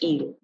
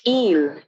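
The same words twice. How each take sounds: First: The vowel is said plainly, without emphasis. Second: The vowel is given extra emphasis. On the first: The speaker calls it wrong. "not just île" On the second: The speaker calls it right. "you want to give more emphasis to the pronunciation"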